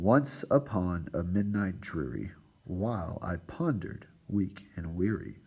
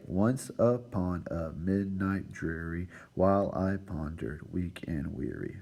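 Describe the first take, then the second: First: Slow reading stressing the beats in "Once upon a midnight dreary"; metrical stress. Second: "Once upon a midnight dreary" slowly split into separate syllables. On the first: Teacher shows students the poem's stressed syllables, slow metrical stress on "Once upon a midnight dreary". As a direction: lean on each stressed syllable of "Once upon a midnight dreary, while I pondered, weak and weary". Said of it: "Where the emphasis is being placed on those".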